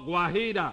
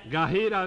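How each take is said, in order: First: A w sound follows the g before the a. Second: The g goes straight into an a sound. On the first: The speaker calls it right. "ahora sí suena" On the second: The speaker calls it wrong. "Gajira, no"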